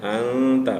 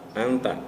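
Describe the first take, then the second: First: The nasal n sound is held long. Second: The nasal n sound is cut short. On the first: The speaker calls it right. "tapi juga ditahan" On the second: The speaker calls it wrong. "nah itu nggak ditahan"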